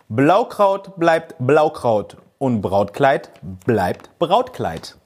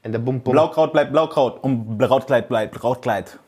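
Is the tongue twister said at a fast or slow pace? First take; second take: slow; fast. First: It is said at a slower, unhurried pace. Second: It is said at a fast, quick pace.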